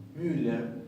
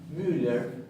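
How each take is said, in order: The two takes are said the same way.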